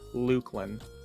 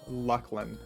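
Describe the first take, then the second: First: The first syllable sounds like 'look'. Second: The first syllable sounds like 'luck'. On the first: "Like look" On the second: "I would say like Lucklin"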